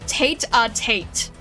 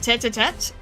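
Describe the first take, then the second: First: The first vowel sounds like 'tate'. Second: The first vowel sounds like 'tet'.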